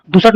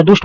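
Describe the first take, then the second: First: दुसट as "du-sat"; split दुसट. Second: दुष्ट as one syllable, "dusht"; joined दुष्ट. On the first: Teacher showing the error, two-syllable दुसट. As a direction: add a vowel before the t in दुसट. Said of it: "दुसट नहीं होता". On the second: Teacher correcting, joined ending on दुष्ट. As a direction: run the sibilant into t in दुष्ट. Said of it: "दुष्ट होता है". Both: Shown as a demonstration.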